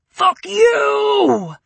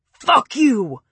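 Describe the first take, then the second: First: Much higher, louder, cracking into a crying shout; screaming. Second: Raw furious scream, starting up. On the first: Preppy screaming to the ceiling, breaking into crying. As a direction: let the scream break into a sob. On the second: Preppy screaming up at the ceiling, furious. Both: A narrator's reading. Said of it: "he screamed to the ceiling".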